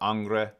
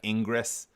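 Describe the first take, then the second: First: The name begins with a nasal 'ahng' sound. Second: The name begins with an 'in' sound. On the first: The speaker calls it right. "I've always heard the name ... pronounced like either Ang or Angre" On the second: The speaker calls it wrong. "if you were mispronouncing it and you're like really American like I am, you'd say like Ingress"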